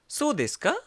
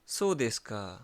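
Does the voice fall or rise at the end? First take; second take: rise; fall. First: The pitch rises at the end. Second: The pitch falls at the end. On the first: The speaker asks whether it is really so. "Question कैसे बोलते हैं हम?" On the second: The speaker acknowledges the information. "सो देश का falling intonation है"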